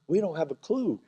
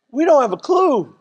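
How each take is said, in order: First: Quiet aside. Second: Clueless husband, louder and higher; louder repeat. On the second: Pastor to wives, playing the clueless husband. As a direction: say it again, up and out. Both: Shown as a demonstration.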